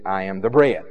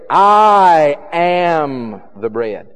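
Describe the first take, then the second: First: The stress falls on the word bread. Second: The stress falls on the word I. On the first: The focus is on what is offered, not the speaker. "without any kind of real emphasis on the I, and wanted to emphasize the bread" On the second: The focus is on who the speaker is. "if they really wanted to emphasize the first part of that sentence"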